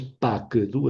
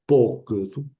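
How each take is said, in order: First: "pa que du" with an open A sound in pa; wrong reading. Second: "po que du" with an O sound in po, the kametz hatuf; right reading. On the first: Teacher shows the wrong Hebrew reading, "pa que du" with A. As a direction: read "pa que du" as pa, que, du, the old mistake. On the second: Teacher gives the correct Hebrew reading, "po que du" with O. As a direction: say "po que du" with a rounded O in po. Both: Shown as a demonstration. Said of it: "no es pa que du, es po que du".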